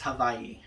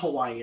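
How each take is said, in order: First: The middle consonant is a V sound. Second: The middle consonant is a W sound. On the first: The speaker calls it right. "more so the enunciations with a V" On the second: The speaker calls it wrong. "it's not with a W"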